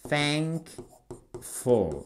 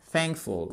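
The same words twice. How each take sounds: First: "Thankful" drawn out softly in two separate syllables; slow syllables. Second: Said in the usual way. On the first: Shown as a demonstration. Teacher breaking "Thankful" down for learners, slow syllables. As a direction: split "Thankful" slowly, a pause between "thank" and "ful".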